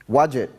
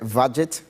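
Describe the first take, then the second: First: The name begins with a W sound. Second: The name begins with a V sound.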